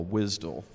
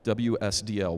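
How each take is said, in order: First: Wisdle said as one word, rhyming with "fizzle"; wisdle, the initials run together as a word; acronym as word. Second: W S D L said as four separate letter names; W S D L as individual initials; spelled-out acronym. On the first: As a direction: say wisdle as a two-syllable word, WIZ-dul. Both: Shown as a demonstration. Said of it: "one called a wisdle".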